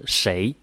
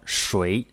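First: The word is pronounced with an 'ei' vowel. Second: The word is pronounced with a 'ui' vowel. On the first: This is the colloquial northern form. "在口语当中呢，尤其是北方、北京、河北地区，他们会说是谁" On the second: This is the standard written form. "在书面语当中呢，我们一般是标谁"

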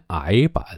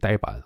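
First: The first syllable starts with a vowel sound. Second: The first syllable starts with a d sound. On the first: This was the reading once taught as correct. "我小时候这个老师哎呦专门强调让我们学这个呆子……念癌板" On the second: This is the reading now set as the standard. "现在都改成规定念呆了"

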